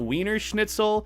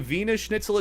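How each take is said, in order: First: Wiener begins with a W sound. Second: Wiener begins with a V sound. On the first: The speaker calls it wrong. "It's not Wiener Schnitzel. The W is like V" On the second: The speaker calls it right. "I learned how to say"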